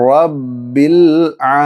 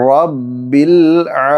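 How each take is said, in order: The two takes are said the same way.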